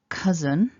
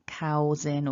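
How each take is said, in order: First: The first vowel is a short uh sound. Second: The first vowel is an ow glide. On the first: The speaker calls it right. "the pronunciation is cousin" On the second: The speaker calls it wrong. "people wanting to say two vowels"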